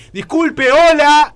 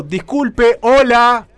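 First: Very loud, high yell of hello; shouting. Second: Loud, higher call over the shower. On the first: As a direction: yell to be heard over the running water. (gritando desesperado por encima de la ducha) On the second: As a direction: call out louder over the noise. (llamando fuerte por encima de la ducha) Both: Retold or imitated. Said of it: "empecé a gritar básicamente".

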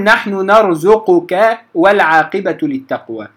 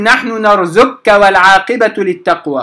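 First: نرزقك as narzuquka, q and k separate; unmerged qaf. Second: نرزقك as narzukka, qaf swallowed into kaf; wrong merged reading. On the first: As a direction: give ق its short u before ك in نرزقك. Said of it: "فأقول". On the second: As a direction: double the k in نرزقك, dropping ق. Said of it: "لا أقول". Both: Shown as a demonstration.

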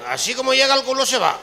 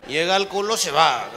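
First: Higher, louder punchline; hammed-up emphatic repeat. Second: Said in the usual way. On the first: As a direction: land the joke harder.

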